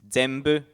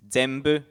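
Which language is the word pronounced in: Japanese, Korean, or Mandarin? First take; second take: Japanese; Japanese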